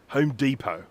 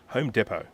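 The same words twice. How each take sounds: First: It is said with an American pronunciation. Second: It is said with an Australian pronunciation.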